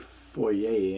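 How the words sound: It is pronounced the Canadian way. "we'll say foyer"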